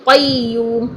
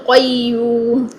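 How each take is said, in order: No difference in how they are said.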